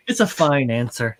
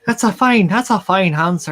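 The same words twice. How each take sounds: First: Said in the usual way. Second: Put-on higher-pitched playful Irish accent. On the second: Riffing with a friend on the answer, mock Irish accent. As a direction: ham up a lilting Irish brogue. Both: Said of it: "can you do an Irish accent?".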